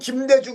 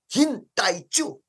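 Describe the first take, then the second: First: The name is read in Korean sounds. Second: The name is read in Japanese sounds.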